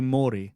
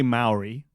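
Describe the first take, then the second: First: Maori with a long "aw" first vowel; imitated pronunciation of Maori. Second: Maori with an "ow" first vowel; local pronunciation of Maori. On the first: Asking a friend about his pronunciation, Maori as "MAW-ree". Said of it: "I think I heard you say". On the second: Shown as a demonstration. Explaining how we say it here, Maori as "MOW-ree". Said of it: "we say Maori".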